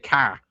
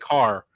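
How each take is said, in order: First: It is said without the R, Boston style. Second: It is said with a clear final R.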